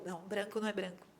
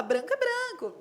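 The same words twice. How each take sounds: First: Low, quick "branco não é branco"; "não" set flat and quiet against the quote; dry correction of "Branco é branco"; firm correction. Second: Mock naive high "Branco é branco"; "Branco é branco" said high and sure of itself; quoting the imagined listener's "Branco é branco" lightly; naive objection. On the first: Real, not acted. Correcting the naive claim. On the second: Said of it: "Você fala".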